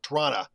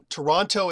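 First: The word is squeezed down to about two syllables. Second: Every sound, including both T sounds, is pronounced. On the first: The speaker has lived there a very long time. "if you've been here forever" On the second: The speaker is from out of town. "if you're from out of town"

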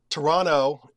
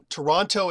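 First: The second T is dropped from the word. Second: Every sound, including both T sounds, is pronounced. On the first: The speaker has lived there a few years. "if you're here, you've been here about 5 years" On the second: The speaker is from out of town. "if you're from out of town"

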